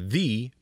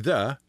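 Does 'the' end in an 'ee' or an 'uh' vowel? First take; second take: ee; uh. First: The word ends in a long 'ee' vowel. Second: The word ends in a short 'uh' vowel. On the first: This form goes before a vowel. "or the before a vowel" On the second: This form goes before a consonant. "You say the before a consonant"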